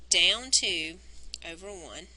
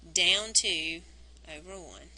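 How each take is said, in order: Both takes have the same delivery.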